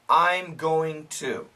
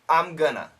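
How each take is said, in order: First: Every word is said fully and carefully. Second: Going to is reduced to gonna. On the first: "Perfect pronunciation" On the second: "The most common pronunciation"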